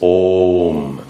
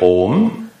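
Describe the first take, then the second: First: The vowel is held for an extra long time. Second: The vowel is held for a medium length. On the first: The speaker calls it right. "three units long" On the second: The speaker calls it wrong.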